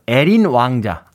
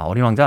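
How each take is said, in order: First: 에린 said slowly with an e sound, not 어린; slow, careful 에린 왕자 the Gyeongsang way; dialect pronunciation. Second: Said in the usual way. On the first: Shown as a demonstration. Host corrects the title to Gyeongsang 에린 pronunciation. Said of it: "아, 어린 왕자 아니죠".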